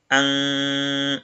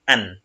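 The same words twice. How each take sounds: First: An with the n nasalised and not sounded; nasalized an. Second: Said in the usual way. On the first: Shown as a demonstration. Teacher showing nasalisation to students, nasal an. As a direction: let "an" ring through the nose, no clear n. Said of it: "Donc, on va dire". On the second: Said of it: "alors que quand il a son soukoun".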